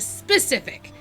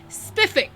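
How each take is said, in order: First: The word is said with all three syllables. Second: The word is clipped to two syllables. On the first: The speaker calls it right. "instead of specific" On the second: The speaker calls it wrong. "He'd say stuff like spiffik"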